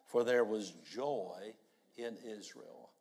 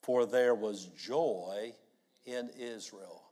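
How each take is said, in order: First: Congregation reading it aloud again; many voices in unison. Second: Congregation reading aloud together; many voices in unison. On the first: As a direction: read it out together once more. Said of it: "Would you read it again". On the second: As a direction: read it out together, slow. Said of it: "Let's read it aloud together". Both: Real, not acted.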